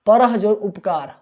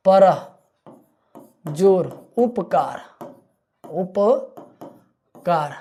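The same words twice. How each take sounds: First: Said in the usual way. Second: परह जोर उपकार drawn out slowly, उपकार stretched long at the end; slow syllable split. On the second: Shown as a demonstration. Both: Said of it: "परोपकार".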